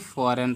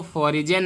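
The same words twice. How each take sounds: First: फॉरेन with silent G, "fo-ren"; फॉरेन in two syllables, no J sound; correct reading. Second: फॉरिजन with the G voiced as J; wrong reading. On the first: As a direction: drop the G in फॉरेन. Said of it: "सिर्फ फॉरेन पढ़ेंगे". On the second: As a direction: add a "jan" syllable in फॉरिजन. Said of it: "फॉरिजन नहीं पढ़ेंगे". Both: Shown as a demonstration.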